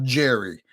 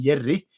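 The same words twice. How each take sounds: First: The J is hard, English-style. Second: The J is soft, Swedish-style.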